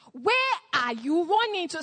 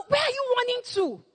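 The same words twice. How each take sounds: First: Said in the usual way. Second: Higher, pressing question; raised urgent question. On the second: Acted. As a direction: demand to know where they run. Repeated question, first take higher.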